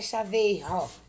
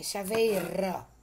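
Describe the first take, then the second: First: The R is pronounced with a strong sound. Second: The R is pronounced with a weak sound. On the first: The speaker calls it wrong. "Chaveiro não é chaveiro" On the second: The speaker calls it right. "é chaveiro"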